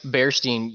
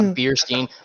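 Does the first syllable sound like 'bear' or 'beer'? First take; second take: bear; beer. First: The first syllable rhymes with 'air'. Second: The first syllable rhymes with 'ear'. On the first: The speaker calls it right. "it's Bearstein, you dumb bitch" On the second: The speaker calls it wrong. "Not Beerstein"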